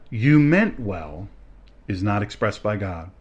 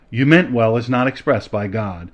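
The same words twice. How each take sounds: First: The sentence is read at a slower pace. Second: The sentence is read at a quicker pace.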